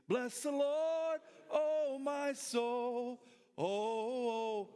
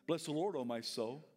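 First: Sung, slow, high, held hymn line; sung, lead the congregation in song. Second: Said in the usual way. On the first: Shown as a demonstration. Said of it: "Say that with me". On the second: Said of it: "David was talking to himself".

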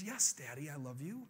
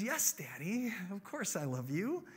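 First: Soft, low, uncertain reply; confused little girl. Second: Put-on lilting, affectionate child's reply; happy little girl. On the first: Acted. Five-year-old answers her dad, confused. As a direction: answer hesitantly, unsmiling, rising at the end. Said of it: "she's confused". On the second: Five-year-old answers her dad at bedtime, happily. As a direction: reassure Daddy sweetly, rising at the end. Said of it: "this time, she's not smiling".

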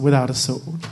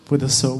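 First: "without" punched and rising; stress on without. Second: "with" leaned on, then a pause; stress on with. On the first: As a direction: contrast by landing hard on "without". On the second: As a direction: say "with a sword" hitting "with". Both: Shown as a demonstration. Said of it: "And you can't fight".

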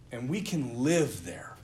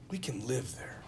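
First: Said in the usual way. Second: Repeated much softer, almost to yourself; soft reflective repeat; softer echo. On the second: Shown as a demonstration. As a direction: let it sink in, quietly.

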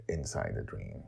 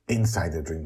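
First: Much lower and softer, trailing off; a low hushed echo of inside the dream; hushed ominous echo. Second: Said in the usual way. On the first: A narrator's reading. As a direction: let inside the dream sink down to a hush. Repeated phrase drops low and soft.

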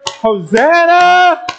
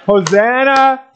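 First: Very high, drawn-out jubilant shout; louder shout. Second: High call, short of full shout; bold call. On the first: Pastor rallying congregation to be louder, long high shout. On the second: Pastor leading congregation before asking for more, high bold call. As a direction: call it out high, holding some back. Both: Shown as a demonstration. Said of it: "say it a little bit louder".

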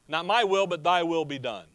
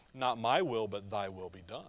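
First: A firm, raised surrender; a louder, resolute take on the prayer; firm declaration. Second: Much lower and softer, yielding; quiet, tender submission to the father; hushed surrender. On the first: Jesus' prayer quoted, first time. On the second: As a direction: let it fall away to a near hush. Jesus' prayer quoted, second time. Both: Retold or imitated.

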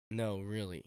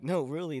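First: Lower, mildly disbelieving; doubting reply. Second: Insisting, with a lift in the voice; earnest insistence. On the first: People doubting his big dream, low mild disbelief. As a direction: imitate someone not taking the answer seriously. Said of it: "people would just laugh". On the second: Dreamer answering those who laughed, earnest insistence. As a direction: imitate yourself standing by your answer. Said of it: "I kinda look at them and be like". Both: Retold or imitated.

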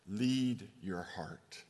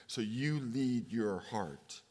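First: Slow, with "Lead" pressed hard and falling; stress on lead. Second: Slow, "you" pushed forward over "lead"; stress on you. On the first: Preacher to daughter, pressing the word "Lead" slowly. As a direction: lean on "Lead", drawn out and firm. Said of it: "don't follow your heart". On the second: Preacher to daughter, pressing the word "you" slowly. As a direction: lean on "you", drawn out and falling. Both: Shown as a demonstration.

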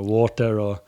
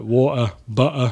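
First: Said in the usual way. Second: "water, butter" with the t dropped to a glottal stop; T disappears. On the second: Shown as a demonstration. Guest showing his lazy Corby accent, T dropped. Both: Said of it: "the T just disappears completely".

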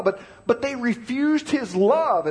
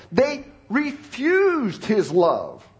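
First: "love" leaned on at the end, slow; stress on love. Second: "refused" punched, whole line very slow; stress on refused. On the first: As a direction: land the weight on "love". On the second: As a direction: drag it out and hammer "refused". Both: Shown as a demonstration. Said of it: "Did you catch it?".

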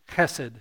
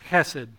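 First: Chesed with a rasped throat-clearing H; throaty Hebrew H. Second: Chesed with a rasped throat-clearing H, quieter; throaty Hebrew H. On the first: Pastor teaching the congregation to say Chesed, throaty H. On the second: Pastor repeating Chesed for the congregation, throaty H. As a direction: rasp the H of Chesed gently. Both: Shown as a demonstration. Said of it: "clear your throat with the H".

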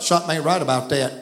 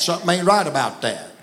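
First: Southern saying. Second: Quick, low Southern folk phrase; Southern saying again. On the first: To the congregation, showing how Southerners say it, in a quick Southern way. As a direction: toss it off like a Southern local. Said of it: "We would say it like this in Southern". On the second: Preacher repeating the phrase for the crowd, in a quick Southern way. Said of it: "I didn't say that, I said that". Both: Shown as a demonstration.

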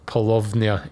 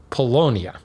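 First: "Paulownia" with a clear V, as puh-LOV-nyuh; German-style V. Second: "Paulownia" with no V sound, as puh-LOH-nee-uh; W instead of V. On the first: Imagining a German saying it, "Paulownia" with a V. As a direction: sound the W in "Paulownia" as a V. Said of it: "maybe if you're German". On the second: Renaming the tree, "Paulownia" said without a V. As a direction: say "Paulownia" with the V softened away. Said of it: "replace the V with a W". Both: Shown as a demonstration.

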